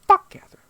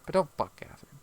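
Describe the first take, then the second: First: Loud high yell of Fuck Catherine; loud high mock yell, Fuck Catherine; mock shout. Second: Said in the usual way. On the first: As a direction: blurt it out. Mocking quote, loud then soft.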